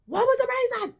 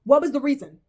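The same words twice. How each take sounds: First: "What was the reason?" asked again much higher, pleading; exasperated high repeat. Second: Said in the usual way. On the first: Real, not acted. Vlogger demanding why Will was chosen, exasperated. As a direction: push the repeat up in disbelief.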